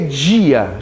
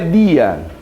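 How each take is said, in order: First: The d is softened into a hissing 'dj' sound. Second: The d is a plain, hard d sound.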